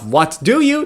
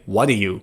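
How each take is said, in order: First: Each word is pronounced fully and separately. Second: The words are run together in a reduced form. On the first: "Instead of" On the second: "they would say"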